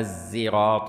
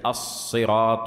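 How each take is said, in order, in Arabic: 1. الحرف الأول زاي خالصة. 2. الحرف الأول صاد مفخّمة خالصة. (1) "ولا الزراط" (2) "ليست الصراط"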